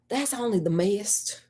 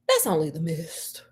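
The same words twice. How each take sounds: First: It is said in a Southern American accent. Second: It is said without a Southern accent. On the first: The speaker calls it right. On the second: The speaker calls it wrong.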